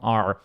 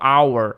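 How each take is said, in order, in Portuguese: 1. A palavra é pronunciada na forma reduzida. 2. A palavra é pronunciada na forma completa. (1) "na fala acaba saindo um our" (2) "que é a palavra individual our"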